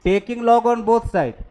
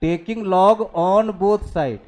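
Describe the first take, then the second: First: Very slow, spaced-out dictation. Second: Extremely slow, word by word; even slower dictation. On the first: Teacher dictating a maths step to students, very slow. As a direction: dictate each word so they can write. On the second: Teacher repeating the step for students, even slower. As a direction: draw every word out for writing. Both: Shown as a demonstration. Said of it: "दोनों side log लो".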